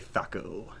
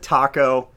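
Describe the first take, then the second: First: The word begins with a TH sound. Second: The word begins with a plain T sound. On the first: The speaker calls it right. "then I correct myself and say thaco" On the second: The speaker calls it wrong. "I pronounce it taco"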